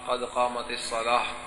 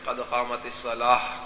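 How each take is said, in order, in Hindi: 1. आख़िरी लफ़्ज़ एक हल्की h आवाज़ से ख़त्म होता है। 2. आख़िरी लफ़्ज़ एक हल्की h आवाज़ से ख़त्म होता है।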